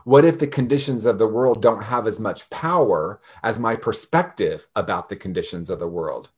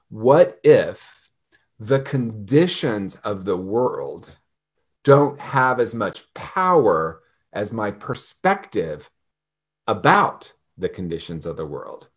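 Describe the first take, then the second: First: It is said at normal speed. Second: It is said more slowly.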